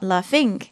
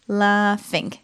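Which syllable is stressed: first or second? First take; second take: second; first. First: The stress is on the second syllable. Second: The stress is on the first syllable. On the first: The speaker calls it wrong. "not laughing" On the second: The speaker calls it right. "The stress is also on the first syllable"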